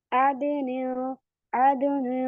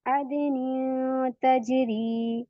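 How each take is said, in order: First: अदनी said short with a thick, heavy nasal; wrong heavy ghunna. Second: अदनी तजरी slow, thin nasal hum on अदनी; light ghunna recitation. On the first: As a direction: show the mistake: a fat ghunna on अदनी. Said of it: "मोटा नहीं करना गुन्ना". (गलत तरीका, मोटा गुन्ना) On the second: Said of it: "अब मेरा गुन्ना बारीक हो रहा है". (बारीक गुन्ना से अदनी तजरी) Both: Shown as a demonstration.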